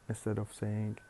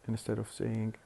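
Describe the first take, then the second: No difference in how they are said.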